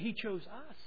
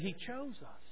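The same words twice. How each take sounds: First: The word 'us' carries the stress. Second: The word 'chose' carries the stress. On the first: They are the ones who were chosen. "We are the object of His choosing" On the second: They were chosen rather than rejected. "meaning He didn't reject us"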